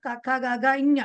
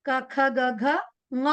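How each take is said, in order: First: ఞ ending the row as 'inya', with a leading i; everyday Telugu recitation. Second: ङ ending the row as a velar 'nga', no leading i; Sanskrit pronunciation. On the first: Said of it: "మనం మామూలుగా తెలుగులో ఏమంటాం". (తెలుగు అలవాటులో చివర 'ఇఞ' అని పలకడం) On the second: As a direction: recite క, ఖ, గ, ఘ and close on a nasal ng-a for ङ. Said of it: "మన సంస్కృతంలో ఎలా పలకాలి". (సంస్కృత పద్ధతిలో చివర ङ ను 'ంగ' లా పలకడం) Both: Shown as a demonstration.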